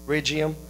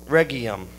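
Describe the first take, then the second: First: "Regium" tried again as RIJ-ee-um with a soft j, rising as a question; corrected pronunciation. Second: "Regium" said REG-ee-um with a hard g, tentative and low; "Regium" with a hard g, falling; unsure pronunciation. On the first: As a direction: ask it back: "Regium" as RIJ-ee-um?. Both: Real, not acted. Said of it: "Did I pronounce that right?".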